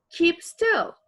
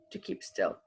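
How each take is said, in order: First: "keep still" high and loud; loud order. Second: Said in the usual way. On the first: Acted. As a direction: bark it at him. Acted command vs reported.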